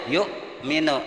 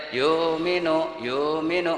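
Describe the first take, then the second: First: A short stop after Yuk before minu; Yuk, pause, then minu; reading with a break. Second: Yuk minu run together without a break, drawn out slowly; wrong reading. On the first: Teacher showing the correct reading with a clear break. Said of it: "kayak putus dulu". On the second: Teacher demonstrating the wrong Quran reading, slow and drawn out. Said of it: "nggak boleh". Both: Shown as a demonstration.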